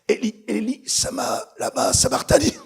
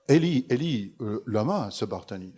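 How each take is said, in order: First: It is gasped out in strained, broken bursts. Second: It is said smoothly in one easy breath. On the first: Each word costs enormous physical effort. The speaker calls it right. "Ça a dû ressembler à ça" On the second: The words come without effort. The speaker calls it wrong. "C'est pas ... Certainement pas"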